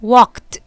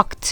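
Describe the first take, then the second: First: "walked" said louder, ending in a crisp t sound; clear pronunciation demo. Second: Said in the usual way. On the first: Shown as a demonstration. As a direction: model "walked" with a final t, not ed.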